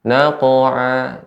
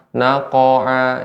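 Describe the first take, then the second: First: The q sound bounces with no full vowel. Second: A full a vowel follows the q sound. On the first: The speaker calls it right. "Namun dia bukan harokat" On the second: The speaker calls it wrong. "Naqa'a ini juga tidak benar"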